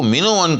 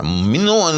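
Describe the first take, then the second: First: من و ان with a kasra on the m and a single, undoubled n: min-o-an; correct pronunciation. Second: من و ان with a doubled n: minn-o-an; wrong-way demo of من و ان, doubled n; wrong pronunciation. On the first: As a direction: model the right من و ان, minu-an with no doubled n. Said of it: "ہم نے اس کو من و ان کہنا ہے". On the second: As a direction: demo the mistake, من و ان with shadda on the n. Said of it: "نہیں کہنا". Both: Shown as a demonstration.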